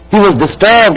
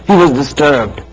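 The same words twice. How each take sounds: First: "He was disturbed" said again, higher and pressed harder; more forceful repeat. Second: Said in the usual way. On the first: Shown as a demonstration. Preacher repeating the line to the congregation, more forceful. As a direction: lean into "disturbed" the second time.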